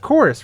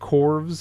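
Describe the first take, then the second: First: The name is said like the word 'chorus'. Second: The name is read as spelled, like 'corvs'. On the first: The speaker calls it right. "It's their fancy way of saying chorus" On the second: The speaker calls it wrong. "I believe is how you pronounce it"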